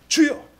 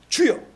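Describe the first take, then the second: The two takes are said the same way.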